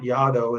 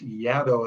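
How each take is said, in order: First: The name does not rhyme with shadow. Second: The name rhymes with shadow. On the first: The speaker calls it wrong. "you pronounce it not Yado" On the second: The speaker calls it right. "it's Yado as in shadow"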